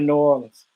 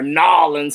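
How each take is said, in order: First: The name is said in full, all syllables. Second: The name is squeezed into two short syllables.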